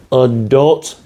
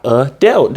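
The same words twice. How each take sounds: First: Slow "adult" as "a-dult", like it's spelled; right "adult". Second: Very slow "adult" as "a-telt"; wrong "adult". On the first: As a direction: stretch out the correct "adult". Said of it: "do you hear the pronunciation". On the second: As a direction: drag out the wrong "a-delt". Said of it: "not adult". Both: Shown as a demonstration.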